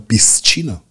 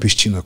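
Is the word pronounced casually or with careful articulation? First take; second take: carefully; casually. First: It is said with careful, precise articulation. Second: It is said the everyday casual way. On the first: "corect cum ar fi" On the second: "cum zice orice român"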